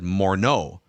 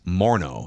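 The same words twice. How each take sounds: First: The stress is on the second syllable. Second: The stress is on the first syllable. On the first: This is how other people said the name. The speaker calls it wrong. "people said Morneau" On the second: This is how the name's owner says it. The speaker calls it right. "You put the emphasis up front"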